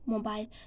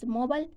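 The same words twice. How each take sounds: First: The ending has a long 'i' sound. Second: The ending sounds like the 'ol' sound. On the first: "British pronunciation pronunciation is mobile" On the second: "American pronunciation mobile mobile is mobile"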